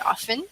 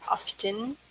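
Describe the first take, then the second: First: The word is said with a silent T. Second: The word is said with a pronounced T. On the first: "British people say often" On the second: "instead of often"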